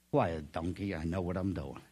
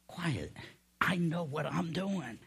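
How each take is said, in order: First: Low, softer, unbothered brush-off; lightly voiced camel, low and settled; dismissive camel. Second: Measured hush, softer then lifting; lightly voiced divine assurance, unhurried; God. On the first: Camel hushing the complaining donkey, low and dismissive. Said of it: "you look at him and go". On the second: God hushing the doubting believer, measured and assured. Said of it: "That's what God says".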